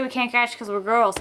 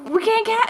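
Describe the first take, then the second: First: Said in the usual way. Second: High, girlish mock excuse; high-pitched protest. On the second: Girls excusing a missed catch, mock protest. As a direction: plead it up high, playfully helpless.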